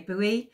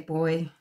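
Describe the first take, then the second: First: It is said with two syllables, boo-ee. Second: It is said with one syllable, like boy. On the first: This is the American way of saying it. "Americans say buoy" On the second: This is the Australian way of saying it. "We say boy down under"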